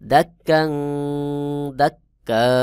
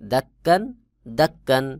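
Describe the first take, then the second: First: The final word ends on a long vowel. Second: The final word ends with an 'n' sound.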